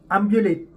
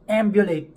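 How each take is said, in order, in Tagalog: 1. Pilipino ang bigkas ng vowel ng A. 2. Amerikano ang bigkas ng vowel ng A. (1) "di nila alam yun"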